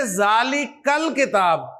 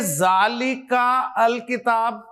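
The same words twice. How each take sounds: First: जालिकल किताब run together as जालिकल, no separate अल, slow; correct joined reading. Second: जालिका अल किताब with अल said as a separate word, slow and spaced; wrong joined reading. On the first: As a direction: glide जालिका straight into ल and on to किताब, slowly. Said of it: "आप क्या पढ़ेंगे?". (सही पढ़ाई: जालिकल किताब, अल मिलाकर धीरे बोलें) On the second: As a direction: read जालिका, pause, then a full अल before किताब, slowly. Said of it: "नहीं ना?". (गलत पढ़ाई: जालिका अल किताब, अल अलग से धीरे बोलें) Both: Shown as a demonstration.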